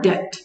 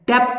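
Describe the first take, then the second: First: No consonant comes before the final t. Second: A p-like sound comes before the final t. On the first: The speaker calls it right. "So ਬੀ silent ਹੈ" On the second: The speaker calls it wrong. "ਡੈਪਟ ਨਹੀਂ ਬੋਲਣਾ"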